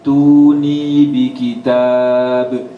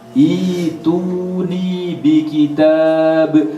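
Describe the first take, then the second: First: The phrase starts directly with t. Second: The phrase starts with an i vowel. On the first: The word is joined to the previous word. "Kalau disambung" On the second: The reading starts fresh at this word. "kalau mulai dari sini akan dibaca ituni"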